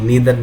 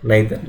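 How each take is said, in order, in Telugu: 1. మొదటి అచ్చు 'ee' లా వినిపిస్తుంది. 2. మొదటి అచ్చు 'eye' లా వినిపిస్తుంది. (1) "సిమిలర్లీ" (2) "సిమిలర్లీ"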